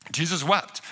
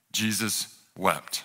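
First: Said in the usual way. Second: Slow, low and softer verse reading; hushed, drawn-out gravity; solemn. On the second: A narrator's reading. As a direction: let each word fall slowly and softly. Solemn quote of short memory verse.

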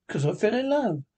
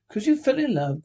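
First: Said in the usual way. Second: Raised, incredulous growl as a question; growled echo. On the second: A narrator's reading. Scrooge echoing his nephew's reason, growling. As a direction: throw it back as a mild growl. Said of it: "growled Scrooge".

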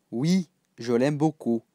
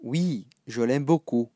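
No difference in how they are said.

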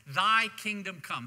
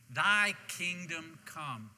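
First: Loud, punchy scripture quote; emphatic recitation. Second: Very slow, spaced-out recitation; leading group recitation. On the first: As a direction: declare the line firmly to the congregation. Recites scripture line before congregation repeats. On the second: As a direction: draw out each word so everyone can join in. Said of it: "Say that with me". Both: Shown as a demonstration.

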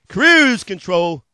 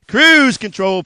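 First: "cruise control" stretched very slow and louder; drawn-out feature. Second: "cruise control" hit louder, a quick sales punch; punched feature. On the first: Dealer savoring the last feature for viewers, slow and drawn out. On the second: Dealer listing features to viewers, punched loud. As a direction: slam "cruise control" like a selling point. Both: Acted.

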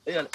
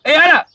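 First: Said in the usual way. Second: Furious yell at the crew; angry shout. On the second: Acted. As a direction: yell it out at full volume. Director's repeated call turns to a shout.

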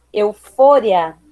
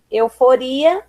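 First: "eufória" slowly, stressed on FO; Spanish stress. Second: Said in the usual way. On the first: Shown as a demonstration. Teacher reading the list, "eufória" with Spanish stress on FO. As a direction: hit FO in "eufória", short "ria". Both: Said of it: "diferença entre as palavras heterotônicas".

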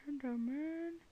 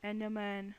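First: Higher, put-on drawn-out ENDERMAN; playful drawn-out call. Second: Said in the usual way. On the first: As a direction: draw out ENDERMAN, rising in pitch. Repeats the name in put-on voice.

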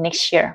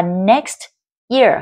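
First: "next year" merged with a ch sound; "next year" as one word, t and y fused; linked sounds. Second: Said in the usual way. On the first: Shown as a demonstration. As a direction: blend "next year" into "nex-cheer". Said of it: "có thể nối âm được". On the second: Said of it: "các bạn hãy nối âm".

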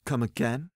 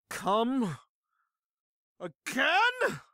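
First: Said in the usual way. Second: High, drawn-out question with a long pause between words; repeated more emphatically. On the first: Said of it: "I repeat the question, this time louder". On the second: Acted. Slumped drinker repeating the question in the bar, emphatic and slow. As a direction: stretch each word like a drunken challenge. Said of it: "this time louder".

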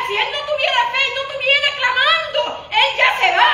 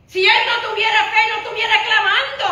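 First: Even higher, loud, laughing climax; climactic preaching. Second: Loud, high preaching line; emphatic preaching. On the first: Pastor repeating the point to the church at its peak, laughing climactic cry. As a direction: lift it to the peak of excitement. Second take, higher still. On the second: Pastor stressing the blind man's faith, loud emphatic preaching. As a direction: drive the point home to the congregation. First of two takes. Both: Acted.

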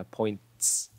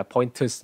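First: Points drawn out on a hissed "ts"; one syllable, points, ending in "ts"; final TS sound. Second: Pointers, with a vowel between t and s; wrong extra syllable. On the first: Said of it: "Nó là âm T S này". (points, một âm tiết, kết bằng "ts") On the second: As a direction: break the ending into "poin-tus". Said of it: "Không phải là pointers nhá". (pointers, thêm nguyên âm thành "poin-tơs") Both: Shown as a demonstration.

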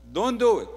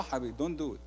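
First: "Don't do it" repeated, louder and higher; loud warning. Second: Quiet warning. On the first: Pastor warning a grumbler, firm and loud. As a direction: push "Don't do it" out loudly. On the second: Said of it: "No, no". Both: Shown as a demonstration.

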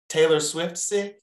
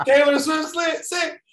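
First: Raised, drawn-out sly answer; cheeky confession. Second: Very high, loud mock shout; squealed punchline. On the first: Retold or imitated. Retelling own excuse to boss, cheeky confession. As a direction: draw it out high, as a cheeky excuse. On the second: Repeating own excuse to boss after laughter, squealed. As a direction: shriek the excuse as a comic punchline.

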